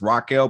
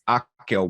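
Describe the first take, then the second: First: The name is said with an American pronunciation. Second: The name is said with a Portuguese pronunciation. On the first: "for American folks, uh, it does read as Raquel" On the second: "the Portuguese way"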